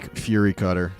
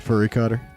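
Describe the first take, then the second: First: The first word rhymes with 'jury'. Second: The first word rhymes with 'hurry'. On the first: The speaker calls it right. "it is Fury" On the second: The speaker calls it wrong. "Furry is cooler though"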